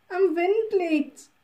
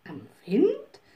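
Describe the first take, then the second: First: Put-on slow, raised old woman's voice; old wood woman, slow and higher. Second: Puzzled echo. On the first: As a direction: lean on Wind and draw it out. Wood woman answers the witch. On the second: Acted. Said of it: "rief die kleine Hexe".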